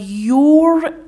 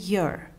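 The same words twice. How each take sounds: First: The word is said with a full vowel. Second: The word is said with a reduced vowel. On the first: The speaker calls it wrong. "your نمیگن انگلیسی زبان ها" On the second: The speaker calls it right. "اغلب مواقع میگن your"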